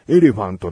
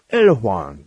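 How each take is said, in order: First: The word ends with a clear final t. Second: The word ends without a final t. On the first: This is the Japanese-style way of saying it. "日本語っぽい言い方" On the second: This is the native-like way of saying it. "正解はエレファンだから"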